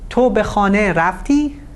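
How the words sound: The pitch rises on the final verb. It is a yes-no question. "the intonation is rising, and the end of the sentence uh, has been stressed"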